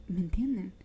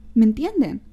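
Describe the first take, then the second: First: Hushed question to viewers; whispered aside. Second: Loud rhetorical question. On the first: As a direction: whisper it to them. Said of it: "unvoiced whisper". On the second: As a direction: punch "¿Me entienden?" loud, falling. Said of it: "louder repeat". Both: Real, not acted.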